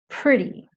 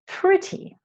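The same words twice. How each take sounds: First: The t in the middle sounds like a d. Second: The t in the middle is a clear t. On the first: "our American friends tend to say pretty, pretty. So the T sound sounds more like a D" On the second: "the British, they tend to say pretty, pretty. So it sounds more like how it's spelled"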